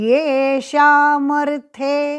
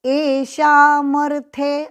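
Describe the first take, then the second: First: The word begins with a 'ye' sound. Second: The word begins with a plain 'e' vowel. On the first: The speaker calls it right. "इसलिए येषामर्थे ऐसा बोलना" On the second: The speaker calls it wrong. "ऐसा बोलना नहीं"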